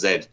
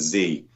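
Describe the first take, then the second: First: The letter name is said the British way. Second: The letter name is said the American way. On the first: "it's pronounced Z in in the in the U K" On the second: "These are all American ... the Z is pronounced as Z"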